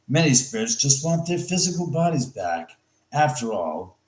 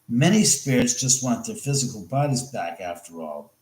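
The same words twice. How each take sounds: First: A full stop comes before 'after all', starting a sentence. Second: 'After all' is joined on, closing the sentence. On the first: The speaker calls it wrong. "that didn't sound right" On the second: The speaker calls it right. "That's better"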